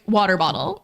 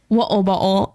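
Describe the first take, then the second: First: It is said in an American accent. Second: It is said in a British accent.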